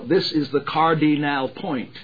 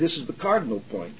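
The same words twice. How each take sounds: First: Each syllable is overly exaggerated and stretched. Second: The syllables are slurred and run together. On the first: "you don't need to be ludicrous and say" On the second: "But neither do you seem to say"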